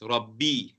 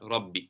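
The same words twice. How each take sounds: First: The final vowel is held for two counts. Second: The final vowel is cut short. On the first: The speaker calls it right. "you prolong it with two counts" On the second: The speaker calls it wrong. "not Rabbi"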